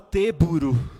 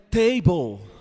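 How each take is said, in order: First: It is said with a Japanese accent. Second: It is said with a British accent. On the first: The speaker calls it wrong. "Nem inglês você sabe falar, você fala teburo" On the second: The speaker calls it right. "Olha o meu sotaque britânico"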